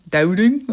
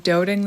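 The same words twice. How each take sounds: First: Loud Canadian "Doubting?" with rising tune; mock Canadian accent. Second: Unintended Canadian vowel in "doubting"; Canadian accent. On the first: Reader poking fun at her own slip, exaggerated Canadian accent. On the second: Real, not acted. Reader voicing doubt about the connection, slight Canadian accent. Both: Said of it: "I just sounded so Canadian".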